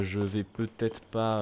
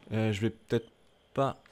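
First: Very slow, stretched peut-être pas; drawn out hesitation. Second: Said in the usual way. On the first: Real, not acted. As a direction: drag the words out, unsure. Repeats, drawn out.

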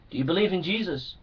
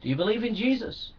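First: Softer, quicker asking of the question. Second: Softer, quick, rising on Jesus; soft rising question. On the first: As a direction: drop the voice and ask it fast. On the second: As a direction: ask again gently, lifting at the end. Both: Shown as a demonstration.

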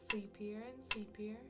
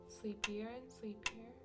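The two takes are said the same way.

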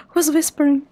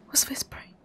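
First: Said in the usual way. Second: Hushed, fully voiceless question; whispering. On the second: Real, not acted. Player asking who else is whispering, whispering. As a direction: whisper it very softly. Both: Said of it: "I mean, I'm whispering".

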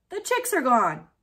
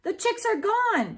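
First: Louder call over the shoulder; calling back. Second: Loud, high alarmed shout. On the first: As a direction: call back while running off. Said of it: "called back over his shoulder". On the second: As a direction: shout the bad news in panic. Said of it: "shouted Daniel". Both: A narrator's reading.

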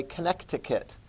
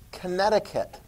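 First: "Connecticut" said Con-nect-i-cut with a clear k before the t; Connecticut with the extra c. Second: Said in the usual way. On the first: Shown as a demonstration. Teacher sounds out the extra c for students. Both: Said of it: "or as I sometimes say".

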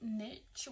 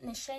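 First: "Niche" said as nitch, rhyming with pitch; lower, softer "Niche", pronounced nitch; niche with TCH. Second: "Niche" ending in a soft sh sound. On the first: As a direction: say "Niche" ending in a hard tch. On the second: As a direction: say "Niche" as nish, questioning the pronunciation. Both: Shown as a demonstration. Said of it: "Is that how you say it?".

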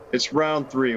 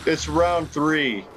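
First: Said in the usual way. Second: "round three" stretched slowly; slow drawn-out. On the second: Shown as a demonstration. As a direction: drag out "round three" in disbelief.

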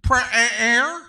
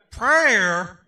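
First: Loud, drawn-out East Texas twang on Prayer; hammed-up Texas drawl, rising; East Texas accent. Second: Put-on playful Southern accent echo, much louder; a loud Southern drawl on Prayer. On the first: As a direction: mimic the East Texas friend's answer. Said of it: "My East Texas friend?". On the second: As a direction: echo the answer in a Southern twang. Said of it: "He even put a little southern accent to that".

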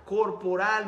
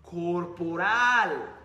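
First: Said in the usual way. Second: Corporal stretched very slow, each syllable held; drawn-out emphasis. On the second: Shown as a demonstration. Coach teaching an audience about body language, stretches the word slowly. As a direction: lean on corporal, slowly, to drive it home. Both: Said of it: "es la expresión corporal".

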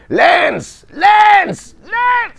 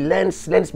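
First: High, loud repeated shout of a name; retold battlefield shout. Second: Half-voiced call without full force; toned-down shout. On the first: Voice actor recalling a war-film scene, hurling the name. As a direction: bellow the name across a battlefield. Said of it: "mais hurler quoi". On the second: Shown as a demonstration. Telling dubbing guests he won't truly scream, restrained call. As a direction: mark the yell without really screaming. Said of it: "je n'hurle pas".

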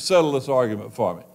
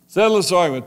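First: Said in the usual way. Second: Louder, higher, pressing plea; insistent repeat, raised and louder. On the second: Acted. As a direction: push the plea harder.

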